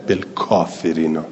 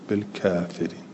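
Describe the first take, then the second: First: The vowel after k is a plain a. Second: The vowel after k leans toward e. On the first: "والباقون لا یمیلون" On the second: "کسائی هم همینطور اماله کرده"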